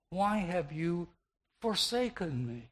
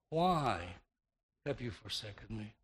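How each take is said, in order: First: The word "forsaken" carries the main stress. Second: The word "why" carries the main stress. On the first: Of all things the Father could do, he forsook him. "the Savior could have emphasized with the verb" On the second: The question is about the reason for being forsaken. "The emphasis then would have been upon the reason behind the Savior's God-forsaken condition, on the why"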